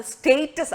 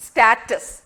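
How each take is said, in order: First: സ്റ്റേറ്റസ് with a long ay, staytus; British pronunciation. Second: സ്റ്റാറ്റസ് with a flat a, stattus; American pronunciation. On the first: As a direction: open സ്റ്റേറ്റസ് on a long ay vowel. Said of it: "അത് സ്റ്റേറ്റസ് ആണ്". (British ഉച്ചാരണം സ്റ്റേറ്റസ്) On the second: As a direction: say സ്റ്റാറ്റസ് with a short a as in cat. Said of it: "കൂടുതൽ ആൾക്കാരും". (American ഉച്ചാരണം സ്റ്റാറ്റസ്) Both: Shown as a demonstration.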